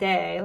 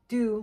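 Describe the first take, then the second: First: The vowel is an 'ay' sound. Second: The vowel is a rounded 'oo'-like sound. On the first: The speaker calls it wrong. "not day. Like I say day" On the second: The speaker calls it right. "No, it's du"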